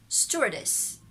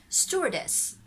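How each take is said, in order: Both takes have the same delivery.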